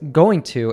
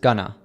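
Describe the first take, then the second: First: Both words are said fully and separately. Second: The words are reduced and run together.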